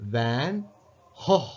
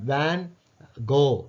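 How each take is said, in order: First: The name starts its second word with an h sound. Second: The name ends with a hard g and vowel. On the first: "ஜிக்கு பதிலாக ஹோ என்ற சவுண்டு கொடுக்குற" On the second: "அமெரிக்காவில் வந்து வேன் கோ அன்னு சொல்லுவாங்க"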